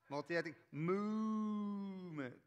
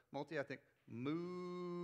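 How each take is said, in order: First: Very slow, higher, sweeping movement; moving voice. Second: Slow, swooping multi-ethnic movement; moving voice. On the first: Pastor repeats the sweeping multi-ethnic movement, slower and bigger. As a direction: stretch it out and swing it. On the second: Pastor models a swooping multi-ethnic movement for the crowd. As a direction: let the pitch travel as you say it. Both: Shown as a demonstration. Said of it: "we gotta move our voices".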